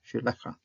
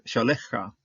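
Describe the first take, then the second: First: Shelecha said in three separate syllables, she-le-cha; corrected pronunciation. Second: Shalecha said as a quick two-beat word with "sha"; first try at the word. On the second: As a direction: Shalecha run together in two syllables. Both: Shown as a demonstration. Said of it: "Oh, three syllables actually".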